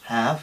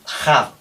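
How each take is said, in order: First: It starts with a very soft breathy h. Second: It starts with a harsh Spanish j sound. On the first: The speaker calls it right. "es una aspiración muy suave" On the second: The speaker calls it wrong. "have con J"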